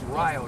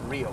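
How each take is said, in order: First: The name is not said like the Brazilian city. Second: The name is said like the Brazilian city. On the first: This is the local town. The speaker calls it right. "it's Rio" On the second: This sounds like a place in South America. The speaker calls it wrong. "not Rio. We aren't going to South America"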